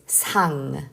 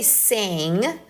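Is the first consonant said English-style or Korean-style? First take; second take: Korean-style; English-style. First: The first consonant sounds like a Korean ㅅ. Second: The first consonant sounds like an English s. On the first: The speaker calls it right. "Just focus on the Korean. So it's sang" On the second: The speaker calls it wrong. "Don't say sang. Don't focus on the English alphabet"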